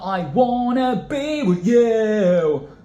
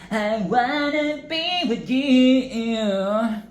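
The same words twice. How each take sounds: First: It is said in a plain British accent. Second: It is said nasal and moany, Japanese-style.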